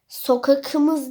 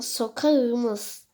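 First: The consonant before the ending is a hard k. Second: The consonant before the ending is a soft ğ. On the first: The speaker calls it wrong. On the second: The speaker calls it right.

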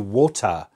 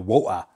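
First: The middle T is clearly pronounced. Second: The middle T is dropped. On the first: "The British tend to use T's. They say wota" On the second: "Unless they're from somewhere where they say woa"

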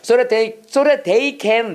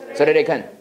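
First: Each word is said fully and separately. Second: The words run together fast with flapped sounds. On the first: The speaker calls it wrong. "이렇게 안 읽어 절대로" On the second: The speaker calls it right. "이거 소레레이큰이야"

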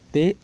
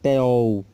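First: The word ends with a u sound. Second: The word ends with an o-l sound. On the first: The speaker calls it right. "mas teu" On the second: The speaker calls it wrong. "Não é teol, como alguns pronunciam"

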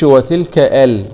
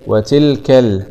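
First: A glottal stop is pronounced before al. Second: No glottal stop; tilka runs into al. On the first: The speaker calls it wrong. "ما نقولش وتلك ال خطأ" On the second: The speaker calls it right. "همزة وصل وسط الكلام لا تنطق"

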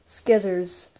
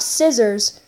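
First: The word begins with an 'sk' sound. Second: The word begins with a plain 's' sound. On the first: "I call scissors skizzers" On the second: "Not scissors"

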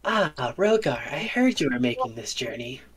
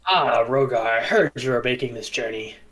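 First: It is said in a womanly voice. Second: It is said in a non-womanly voice.

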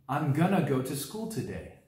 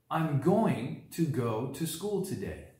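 First: Going to is reduced and blended into gonna. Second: Going to is said in full, each word clear. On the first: "If we reduce the verb, we would say" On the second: "For example"

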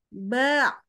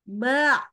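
The two takes are said the same way.

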